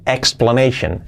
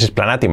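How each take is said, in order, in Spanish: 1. La terminación se dice con sonido 'sh'. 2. La terminación se dice sin sonido 'sh'. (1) "Esa terminación, shen" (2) "no es explanation"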